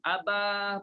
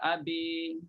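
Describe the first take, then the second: First: The final vowel is a plain open 'a'. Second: The final vowel is tilted toward 'i'. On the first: The speaker calls it right. "aba pun sama" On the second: The speaker calls it wrong. "tak dibaca dengan uh, abi"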